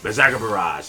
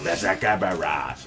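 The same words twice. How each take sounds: First: The phrase is said quickly and run together. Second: The phrase is said slowly, syllable by syllable. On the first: The name cannot be clearly made out. "it's like Ves Ves Vaporage" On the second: The name can be clearly made out. "when you break it up"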